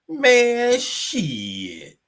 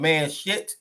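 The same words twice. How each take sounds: First: The words linger with a pause between them. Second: The words are run together without lingering. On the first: The speaker calls it right. "the words that should be lingering at the end. Like really, or the three dots" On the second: The speaker calls it wrong. "instead of saying man shit"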